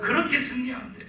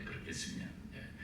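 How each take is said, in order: First: Said in the usual way. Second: 그렇게 승리하면 돼 whispered with a laugh; 승리하면 breathed as a soft echo. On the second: Real, not acted. Repeated under breath. (웃으며 속삭이는 승리하면 돼)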